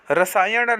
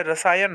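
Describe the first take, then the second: First: रसायन ending in curled-tongue ṇ; wrong retroflex n. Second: रसायन ending in plain n; correct dental n. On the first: Teacher showing students the mistake, retroflex n. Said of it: "नहीं होता है". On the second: Teacher giving students the right form, plain n. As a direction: keep the tongue forward ending रसायन. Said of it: "होता है". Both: Shown as a demonstration.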